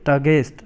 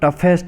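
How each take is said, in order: First: The middle consonant is a hard g sound. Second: The middle consonant is an f sound. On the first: The speaker calls it wrong. "Some people pronounce it टगेस्ट something, तो ये दोस्तों ऐसा नहीं होता है" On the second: The speaker calls it right. "ये इसको टफेस्ट बोलते हैं"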